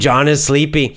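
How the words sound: It is said in a lively, excited tone.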